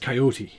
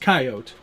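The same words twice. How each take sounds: First: The word is said the local way. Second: The word is said the western way. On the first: This is how people here say it. "Here I think it's Coyote" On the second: This is how people out west say it. "out west it's Coyote"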